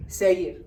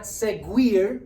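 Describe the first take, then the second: First: Seguir with a silent u, seh-GEER; right way. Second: Seguir with the u said, seg-WEER; wrong way. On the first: Teacher corrects students, silent u in seguir. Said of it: "it's seguir". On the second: Teacher shows students the wrong way, sounding the silent u. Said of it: "It's not seguir". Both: Shown as a demonstration.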